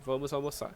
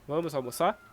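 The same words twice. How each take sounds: First: It is said as a plain statement. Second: It is said as a yes-no question.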